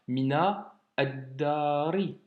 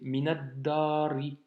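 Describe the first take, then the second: First: The two words are said separately with a break. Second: The two words are run together without break. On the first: The speaker calls it wrong. "On ne s'arrête pas finalement, c'est pas mina addari" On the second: The speaker calls it right. "on fait aussi la liaison"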